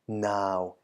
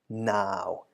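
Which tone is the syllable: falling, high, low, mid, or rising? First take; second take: low; low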